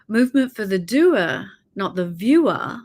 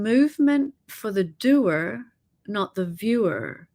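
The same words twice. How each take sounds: First: It is said in an Australian accent. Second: It is said in the speaker's ordinary accent.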